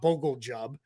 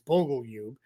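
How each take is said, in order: First: The second part begins with a J sound. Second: The second part begins with a Y sound. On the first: The speaker calls it wrong. "I promise it's not Bogle Jub. Um, it's that's how it looks" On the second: The speaker calls it right. "but it's it's Bogle Yub"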